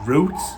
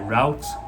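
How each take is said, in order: First: It is said with a British pronunciation. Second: It is said with an American pronunciation.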